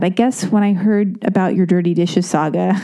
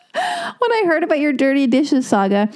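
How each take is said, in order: First: Said in the usual way. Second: Can't get the words out for laughing. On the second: Real, not acted. Moved by Sam's email, laughing and tearing up. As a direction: reread through laughter and tears, higher. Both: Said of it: "repeats the line laughing".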